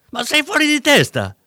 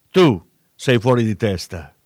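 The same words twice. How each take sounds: First: High, loud outburst of disbelief; shocked exclamation. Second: Growled. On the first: Dealer cries out at the cop after the elbow, shocked. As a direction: blurt it out in shock, voice jumping up. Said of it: "esclamò Roby". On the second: Cop growls the insult back at the dealer. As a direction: snarl it back at him. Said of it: "ringhiò Campagna". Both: A narrator's reading.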